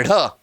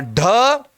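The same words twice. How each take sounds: First: ढ as a lower flapped rh; dotted flapped ढ़. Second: ढ as a hard aspirated stop, rising; forceful undotted ढ. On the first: Teacher tells friends to listen closely, ढ as a light flap. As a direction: let the tongue flick through ढ. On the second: Teacher tells friends to listen closely, ढ as a firm stop. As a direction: hit ढ squarely with the tongue curled back. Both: Shown as a demonstration. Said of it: "दोस्तों ध्यान से सुनना".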